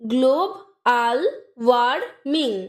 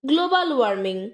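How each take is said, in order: First: The syllables are said separately with gaps. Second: The syllables are joined smoothly without gaps.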